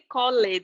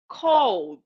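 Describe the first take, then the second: First: The ending is pronounced, giving two syllables. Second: The ending is silent, giving one syllable. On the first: The speaker calls it wrong. "I don't say called" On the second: The speaker calls it right. "We don't pronounce the E"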